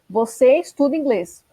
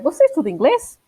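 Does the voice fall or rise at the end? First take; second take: fall; rise. First: It ends with a falling, statement tune. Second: It ends with a rising, question tune.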